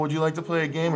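It is said in a creepy voice like Saw.

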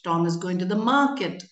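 The stress falls on the word market. It answers where Tom is going. "Then they would stress on market"

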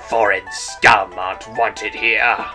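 It is said in a rough, growling voice.

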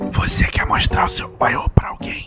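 It is said in a quiet whisper. The speaker calls it right.

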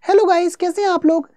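It is said in a high, female-sounding voice. A female teacher is speaking. "दीपनी sir की जगह मान लो कोई Deepti ma'am आती है"

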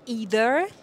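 It is said with an American pronunciation. "توی امریکن either"

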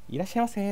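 The greeting is said in a bright, cheerful voice. "こういうふうな声色、トーン、明るい声で言うのと"

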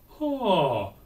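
The onset is balanced between breathy and hard. The speaker calls it right. "so I ask them to do the compromise"

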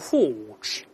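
The r sound after the vowel is dropped.

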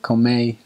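The final r is changed, northern countryside style. "they call that the countryside... they say"

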